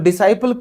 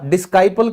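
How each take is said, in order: First: No k sound follows the s. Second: A k sound follows the s. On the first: The speaker calls it right. "तो डिसाइपल क्यों हुआ" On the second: The speaker calls it wrong. "डिस्काइपल क्यों नहीं हुआ"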